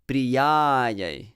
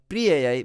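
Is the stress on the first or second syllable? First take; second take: second; first. First: The stress is on the second syllable. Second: The stress is on the first syllable. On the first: The speaker calls it right. "Stress the second syllable more because it's long" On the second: The speaker calls it wrong. "The Pri is not to be stressed. So not Priyayai"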